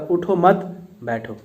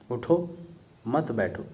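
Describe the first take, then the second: First: There is no pause after the first word. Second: There is a pause right after the first word.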